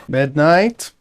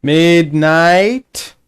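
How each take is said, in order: First: Short questioning call, rising at the end. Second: Long, loud, drawn-out call rising at the end; calling out loudly. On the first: Player calling to teammate Midnight, questioning call. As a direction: call a name to check for an answer. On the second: Player hailing unanswering teammate Midnight, drawn-out call. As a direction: stretch the name out to reach someone far off. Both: Real, not acted.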